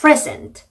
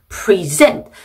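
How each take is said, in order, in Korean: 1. 강세는 첫 음절에 있어요. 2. 강세는 두 번째 음절에 있어요. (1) "명사나 형용사" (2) "강세가 뒤쪽에 가고"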